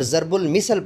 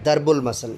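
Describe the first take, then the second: First: It starts with z and has misal. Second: It starts with d and has masal. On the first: The speaker calls it wrong. "पढ़ना totally गलत है" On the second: The speaker calls it right. "इसकी original pronunciation"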